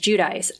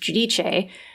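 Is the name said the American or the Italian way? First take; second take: American; Italian. First: The name is said with an American pronunciation. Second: The name is said with an Italian pronunciation. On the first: The speaker calls it wrong. "the American way, which is" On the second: The speaker calls it right. "the Italian pronunciation, which is"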